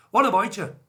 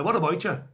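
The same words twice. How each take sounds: First: Higher, louder mock Belfast greeting; hammed-up Belfast accent. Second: Lightly attempted Belfast greeting; bad Belfast accent. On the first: Host repeats the greeting for Andrew in an exaggerated, louder Belfast accent. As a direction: belt out a bad Belfast accent. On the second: Host greets Andrew from a wet Belfast in a bad Belfast accent. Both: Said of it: "Worst accent of all time".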